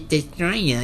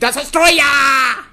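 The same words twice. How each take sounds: First: The word is said flatly, without extra energy. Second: The word is said loudly, with dramatic energy. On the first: The speaker calls it wrong. "you can't just be like Godzilla versus Destroyer" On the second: The speaker calls it right. "You have to be Destroyer!"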